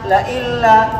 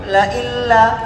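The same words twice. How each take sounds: The two takes are said the same way.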